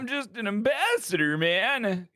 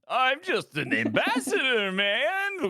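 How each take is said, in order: First: It is said without a French accent. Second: It is said with a French accent.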